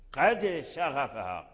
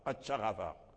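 First: The d is released with a clear bounce. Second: The d merges into the following sh sound. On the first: This is the proper recitation. The speaker calls it right. "لا بد من القلقلة" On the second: This is the colloquial way of reading. The speaker calls it wrong. "ما تقولش قد شغفها، قد شغفها، هذه قراءة العامية"

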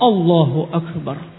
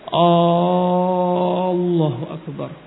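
First: It is said straight with short vowels. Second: It is said with drawn-out vowels. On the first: The speaker calls it right. "Langsung Allahu Akbar" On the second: The speaker calls it wrong. "panjangkan. Ini suatu kesalahan"

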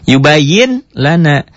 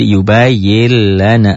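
First: The n is pronounced before the l. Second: The n merges into a doubled l. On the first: "Ditulisnya ada bunyi N-nya" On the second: "Dibacanya menjadi yubayil lana"

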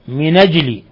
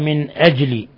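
First: The n takes an a, with no glottal stop. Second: The n is vowelless, followed by a glottal stop. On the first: "بالنقل مع فتح النون" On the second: "هذه قراءة الجماعة"

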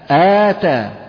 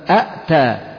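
First: One glottal stop is followed by a long vowel. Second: Two glottal stops begin the word. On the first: The second hamza has become a long vowel. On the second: This is the word's underlying form.

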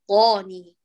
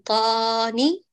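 First: The long vowel is held for two counts. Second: The long vowel is stretched far too long. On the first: The speaker calls it right. "بل طاني" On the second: The speaker calls it wrong. "فلا نقول طاني"

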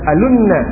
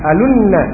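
Both takes have the same delivery.

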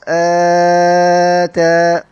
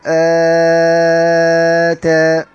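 First: The long vowel is held a medium length. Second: The long vowel is held very long. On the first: "التوسط" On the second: "الطول، ثلاث ألفات"

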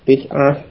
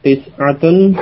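First: The word ends without the case ending. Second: The word ends with the full case ending.

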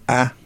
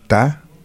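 First: The t is a doubled, stronger consonant. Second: The t is a single plain consonant. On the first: "Cuando pronuncio ta, con dos consonantes" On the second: "cuando pronuncio ta, es una consonante"

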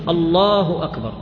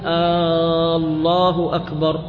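First: It is said as a firm, decisive statement. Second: It is drawn out and sounds like a question. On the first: It firmly declares that God is greatest. The speaker calls it right. "على وجه الجزم" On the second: It asks whether God is greatest. The speaker calls it wrong. "الآن هذا تلحين، كأنه يسأل الناس هل الله أكبر"

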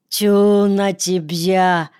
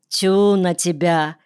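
First: It is said in a Jewish accent. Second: It is said in a plain local accent.

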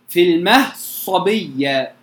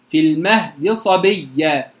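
First: The d is merged fully into the following s. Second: The d carries only a brief partial vowel. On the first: "الإدغام" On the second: "الروم ... جزء من الحركة"

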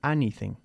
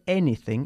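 First: The first vowel sounds like in 'cat'. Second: The first vowel sounds like in 'bed'. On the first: The speaker calls it wrong. "y no anything" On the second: The speaker calls it right. "Se dice anything"

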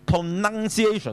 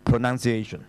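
First: The middle 'nun' syllable is strong and loud. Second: The middle 'nun' syllable is light and weak. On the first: The speaker calls it wrong. "但是你說讀pronunciation 呢又錯的" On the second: The speaker calls it right. "其實它是讀一個輕音"

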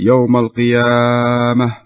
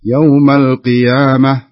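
First: The long vowel is stretched out extra long. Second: The long vowel is held only two beats. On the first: The speaker calls it wrong. "لا تمد الألف، لا تقول يوم القيامة" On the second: The speaker calls it right. "يوم القيامة بس"

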